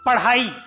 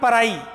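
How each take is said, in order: First: The middle consonant is an aspirated retroflex flap. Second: The middle consonant is a different, substituted sound. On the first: The speaker calls it right. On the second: The speaker calls it wrong. "Not पढ़ाई"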